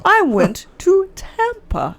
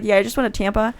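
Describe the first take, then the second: First: Slow, high-pitched, word-by-word delivery; laboured, drawn-out saying of the sentence; slow demonstration. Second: Quick, casual run-through; fast offhand version, softer and unemphatic. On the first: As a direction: stretch each word out carefully. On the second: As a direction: rattle it off in one breath. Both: Shown as a demonstration. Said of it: "if I say it fast".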